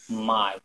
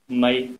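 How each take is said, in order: First: The word is said on a low tone. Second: The word is drawn out a little longer. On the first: Neck. "Low tone" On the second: Tail. "Little bit longer"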